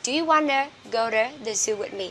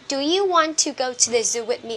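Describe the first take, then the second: First: The words 'want to' are reduced to 'wanna'. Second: The words 'want to' are said in full.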